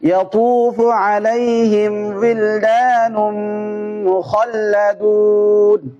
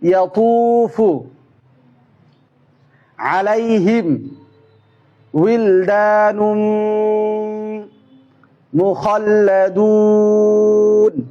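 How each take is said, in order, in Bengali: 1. এটি মাঝারি গতিতে পড়া হয়। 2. এটি একটি একটি শব্দ করে পড়া হয়। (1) "মিডিয়াম গতি" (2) "শব্দ শব্দ"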